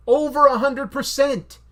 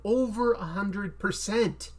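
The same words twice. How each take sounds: First: High, loud, slow boast; emphatic shout. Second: Slow, firm emphasis on "over a hundred percent"; emphatic. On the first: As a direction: belt it out with total conviction. Repeats boast much louder. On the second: Same boast said twice, building. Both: Real, not acted.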